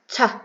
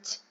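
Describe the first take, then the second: First: The t sound ends with an added uh vowel. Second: The t sound ends with no added vowel. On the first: The speaker calls it wrong. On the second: The speaker calls it right.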